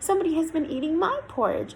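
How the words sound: The voice is high and squeaky. "in his squeaky voice"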